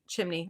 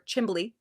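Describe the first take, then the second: First: The word is said with a plain 'n' sound. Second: The word is said with a 'bl' sound.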